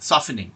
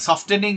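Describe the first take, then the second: First: The t sound is left silent. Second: The t sound is clearly pronounced. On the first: The speaker calls it right. "কিন্তু সফেনিং" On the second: The speaker calls it wrong. "সফটেনিং না"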